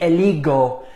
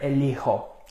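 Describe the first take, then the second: First: The middle consonant is a hard G sound. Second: The middle consonant is a breathy H sound. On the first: The speaker calls it wrong. "eligo doesn't sound like the original sound here of elegir" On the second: The speaker calls it right. "we have to conserve this H sound here somehow"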